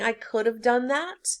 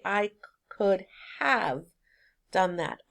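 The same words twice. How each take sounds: First: 'Have' is reduced, sounding like 'of'. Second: 'Have' is said fully and clearly. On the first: The speaker calls it wrong. "Instead of saying" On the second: The speaker calls it right. "you need to be very clear in your speech and say"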